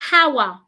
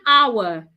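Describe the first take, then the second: First: The word starts with an added h sound. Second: The word starts with a vowel, no h sound. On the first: The speaker calls it wrong. "Don't say hour" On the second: The speaker calls it right. "It's one hour"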